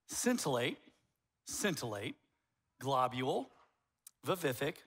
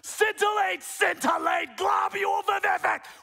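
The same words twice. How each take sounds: First: It is said at normal volume. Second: It is said loudly with heavy emphasis.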